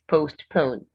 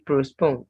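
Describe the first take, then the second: First: No R sound is heard in the word. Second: An R sound is inserted into the word. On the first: The speaker calls it right. "No R in this word" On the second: The speaker calls it wrong. "Don't say postpone"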